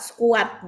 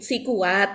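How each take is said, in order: First: The two words run together into one. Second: The two words are said clearly apart. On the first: "mengucapkannya menjadi satu kesatuan" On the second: "Kalau kita mungkin agak clear di sini"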